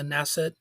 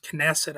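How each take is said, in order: First: Knesset with the K silent, as NESS-et. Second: Knesset with the K sounded, as kuh-NESS-et. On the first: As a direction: drop the K in Knesset, start on N. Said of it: "or I've sometimes heard it pronounced". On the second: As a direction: say the K at the start of Knesset. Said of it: "I've sometimes heard it pronounced". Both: Shown as a demonstration.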